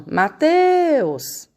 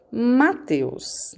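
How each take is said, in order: First: "Mateus" called out high, TEUS held long; chamando alguém. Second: Said in the usual way. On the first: Shown as a demonstration. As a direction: call "Mateus" across the street, stretching teus. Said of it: "Quando você vai chamar ele". (chamando "Mateus" de longe, alongando o teus) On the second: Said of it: "Não é assim, ó".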